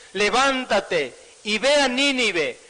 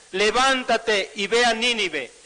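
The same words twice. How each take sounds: Both takes have the same delivery.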